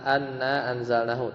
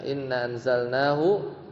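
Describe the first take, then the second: First: The first word begins with an a vowel. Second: The first word begins with an i vowel. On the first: The speaker calls it wrong. "nggak mungkin anna" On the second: The speaker calls it right. "tapi inna pasti ya"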